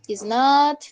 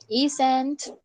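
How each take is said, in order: First: Both words are said separately in full. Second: The two words are joined into one syllable. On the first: "la forma larga" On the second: "suena más directo"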